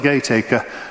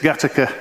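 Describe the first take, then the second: First: The first vowel is a long 'ay' sound. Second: The first vowel is a short 'a' sound. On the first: This follows the written form of the name. "It's spelt Gaytaca" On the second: This is how local people say the name. "in Liverpool they say it's Gattaca"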